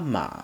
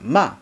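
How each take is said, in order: First: The pitch stays high and level throughout. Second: The pitch rises from low to high. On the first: "The first tone ... It remains high and flat" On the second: "The second tone ... You rise from low pitch to high pitch"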